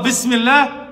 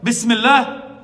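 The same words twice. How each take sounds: First: Raised, ringing Bismillah again; son's last word. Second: Raised, ringing Bismillah; son's last word. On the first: Imam repeating the son's last word, raised. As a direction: proclaim it the same way. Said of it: "He mentioned the name of Allah". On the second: Imam stressing the son's last word, raised. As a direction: proclaim it as he did. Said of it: "Her son said that". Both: Retold or imitated.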